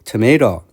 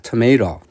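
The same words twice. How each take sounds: Both takes have the same delivery.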